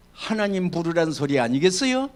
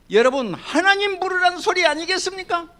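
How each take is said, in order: First: Said in the usual way. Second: 하나님 부르란 소리 higher and louder than the first take; raised preaching call. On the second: Acted. Pastor to congregation, higher and louder second take of 하나님 부르란 소리. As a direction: lift the whole question up high.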